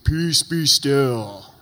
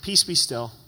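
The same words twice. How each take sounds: First: It is said loudly in a deep, booming voice. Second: It is said quietly and casually, half asleep.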